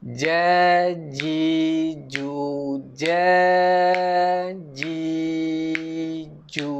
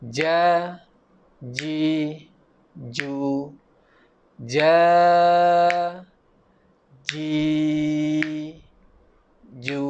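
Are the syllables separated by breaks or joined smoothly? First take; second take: joined; separated. First: The syllables are read slowly without breaks. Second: The syllables are read with breaks between them.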